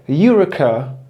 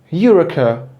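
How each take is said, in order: No difference in how they are said.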